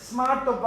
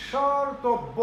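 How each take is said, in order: First: স্মার্টব্য said the wrong way, with the m sound; common mistake. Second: সর্তব্য said cleanly with no m sound; correct pronunciation. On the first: Teacher showing students a common error, mock wrong pronunciation. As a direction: show the mistake students make. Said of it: "আমরা অনেকেই ভুল করে স্মার্টব্য বলি". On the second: Teacher correcting the common mistake, clear model pronunciation. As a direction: give the right form সর্তব্য. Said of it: "এটা আসলে". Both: Shown as a demonstration.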